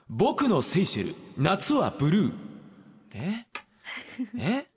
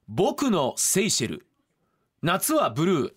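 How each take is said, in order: First: The voice has an echo effect added. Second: The voice is plain with no echo.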